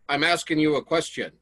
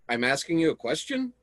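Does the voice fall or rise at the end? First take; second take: falls; rises. First: The voice falls at the end. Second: The voice rises at the end.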